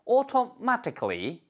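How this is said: The t is a crisp, clear t sound. "이렇게 발음하시면 영국식이 되는 거고요"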